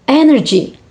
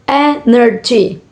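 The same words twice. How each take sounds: First: Said in the usual way. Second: Energy slowly split into e-ner-gy; syllable by syllable. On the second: Shown as a demonstration. Teacher showing three syllable word, syllable by syllable. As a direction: separate the three beats of energy. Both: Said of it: "three syllable words".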